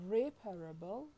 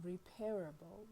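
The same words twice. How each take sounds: First: Reparable stressed on REP; stress on first syllable. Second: Repairable stressed on PAIR; stress on second syllable. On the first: Lecturer introduces two example words, stress on first syllable. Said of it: "it is slightly, uh, disguised in the first". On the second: Lecturer introduces two example words, stress on second syllable. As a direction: say repairable with repair clearly heard inside it. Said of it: "Both have repair as their stem". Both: Shown as a demonstration.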